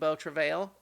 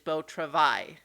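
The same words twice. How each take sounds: First: The title is pronounced in an anglicized way. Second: The title is pronounced in a French way. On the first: The speaker calls it wrong. "I was also saying" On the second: The speaker calls it right. "which is the French pronunciation"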